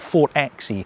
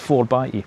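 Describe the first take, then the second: First: The x is read as the letter X. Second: The x is read as the word by. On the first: The speaker calls it wrong. "It's not four X E" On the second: The speaker calls it right. "that's how you pronounce it"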